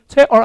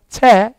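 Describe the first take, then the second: First: The final r sound is pronounced. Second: The final r is dropped, vowel lengthened. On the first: "chair 아니라" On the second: "알바는 빠져요... 약간 채 이렇게"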